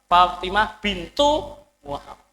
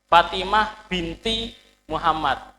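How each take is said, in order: First: The middle word ends with a u sound. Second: The middle word ends with an i sound. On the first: The speaker calls it right. "Aslinya pengucapannya bintu bukan binti" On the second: The speaker calls it wrong. "Wong Indonesia kan binti terus kan"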